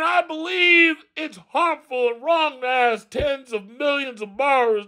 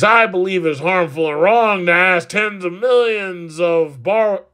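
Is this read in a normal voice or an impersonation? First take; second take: impersonation; normal. First: It is read in an imitation of an elderly politician. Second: It is read in an ordinary, plain voice. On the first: The speaker calls it right. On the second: The speaker calls it wrong.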